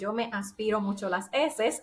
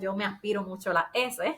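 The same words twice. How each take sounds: First: The S sounds are pronounced fully and clearly. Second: The S sounds are softened into breathy h sounds. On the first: "En lugar de decir esto que acabo de decir" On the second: "yo diría"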